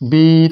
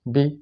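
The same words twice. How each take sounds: First: The vowel is drawn out to double length. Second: The vowel is held very briefly. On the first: "ज़ेर को लंबा करेंगे" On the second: "ये शॉर्ट आवाज़ है"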